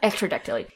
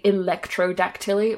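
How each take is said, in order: First: The word begins with the sounds 'ectro'. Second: The word begins with the sounds 'electro'. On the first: The speaker calls it right. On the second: The speaker calls it wrong.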